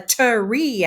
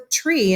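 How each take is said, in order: First: The word is stretched into two syllables. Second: The word is said as one syllable. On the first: The speaker calls it wrong. "you never say" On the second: The speaker calls it right. "You would say"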